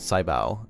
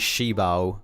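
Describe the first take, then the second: First: The first syllable sounds like 'sigh'. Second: The first syllable sounds like 'shee'. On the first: "like when you say sci-fi" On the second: "it's just like shut your"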